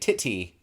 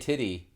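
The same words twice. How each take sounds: First: British accent with crisp, clear t sounds. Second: American accent with soft, flapped t sounds. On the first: "they say" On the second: "we say titty"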